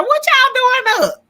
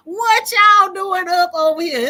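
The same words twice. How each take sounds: First: Much higher, louder, slow playful shout; hammed-up disbelief at the late crowd; mock surprise. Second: Higher, louder slow laughing shout; playful disbelief through laughter; mock surprise.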